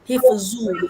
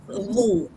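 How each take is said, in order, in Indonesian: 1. Konsonannya bunyi z. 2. Konsonannya bunyi dh. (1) "Dia dia macam zai" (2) "lidah kena dekat gigi"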